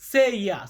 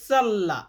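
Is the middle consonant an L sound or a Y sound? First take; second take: Y sound; L sound. First: The middle consonant is pronounced like a Y. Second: The middle consonant is pronounced like an L. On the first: The speaker calls it right. "আমরা এখানে সেইয়া এমনটা উচ্চারণ করি" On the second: The speaker calls it wrong. "ইংরেজিতে উচ্চারণ করতে গেলে আপনাকে বলতে হবে সাল্লা ... বাট এমন উচ্চারণটা না ভাই"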